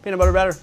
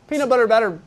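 First: It is said quickly. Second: It is said at a normal, slower pace.

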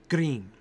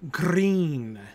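First: The R is a single quick flip. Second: The R is rolled and drawn out. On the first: "you can just flip it and say green" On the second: "you can roll your R and say green"

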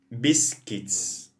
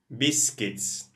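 No difference in how they are said.

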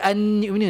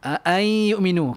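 First: A clear n is pronounced before the y. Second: The n merges into the following nasalized y. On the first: The speaker calls it wrong. "Mana ada an yu'minu, tak ada dah" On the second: The speaker calls it right. "Ai dah tak ada bunyi nun"

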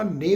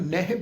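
First: The word ends with an 'e' vowel. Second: The word ends with a 'hi' sound. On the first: "ਨੇ ਵੀ ਨਹੀਂ ਪੜ੍ਹਨਾ" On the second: "ਕਈ ਸੱਜਣੇ ਦਾ ਉਚਾਰਨ ਨਹਿ ਵੀ ਕਰਦੇ ਆ"

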